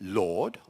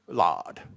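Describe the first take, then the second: First: The vowel is rounded and less open. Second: The vowel is open, close to 'lard'. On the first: This is the present-day standard pronunciation. "modern R P" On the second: This is the standard pronunciation of the 1920s. "Which what open vowel"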